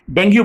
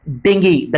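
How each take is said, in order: First: डेंगू said as "den-goo", ending in a long oo; the mistaken डेंगू, rhyming with goo; common wrong pronunciation. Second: डेंगू said as "deng-gee", ending in ee; the right डेंगू, DENG-gee with a short ee ending; correct pronunciation. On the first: Teacher demonstrating the students' common mistake, डेंगू as den-goo. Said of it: "ज्यादातर आपको इसका मिसप्रोनाउंसिएशन लोग करते दिखेंगे". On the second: Teacher correcting the class, डेंगू as deng-gee. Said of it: "इसको आपको बोलना है डेंगू". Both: Shown as a demonstration.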